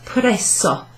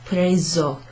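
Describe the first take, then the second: First: The middle consonant is a long hissing s. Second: The middle consonant is a single z sound. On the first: The speaker calls it wrong. "not preso, because there's not a double S there" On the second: The speaker calls it right. "It's preso"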